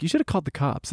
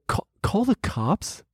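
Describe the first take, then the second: First: Said in the usual way. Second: Slow, higher-pitched disbelieving question; incredulous echo. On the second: Retold or imitated. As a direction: stammer it back in disbelief. Incredulous echo of friends' advice.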